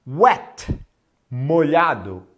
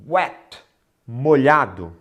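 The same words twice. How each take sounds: The two takes are said the same way.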